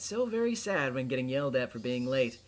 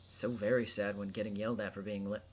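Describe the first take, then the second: First: The voice sounds warm and concerned. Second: The voice sounds flat and unconcerned. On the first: The speaker calls it right. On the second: The speaker calls it wrong.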